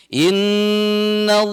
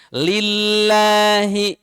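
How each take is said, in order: First: "Innallah" chanted slow with a full, heavy "llah"; heavy Allah. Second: "Lillahi" chanted with a light, thin "lla"; thin Allah. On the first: Teacher chanting an example of heavy Allah. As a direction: recite "Innallah" with a thick "lla". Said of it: "itu tebal, tafkhim namanya". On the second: Teacher chanting an example of thin Allah. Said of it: "itu tarkik namanya". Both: Shown as a demonstration.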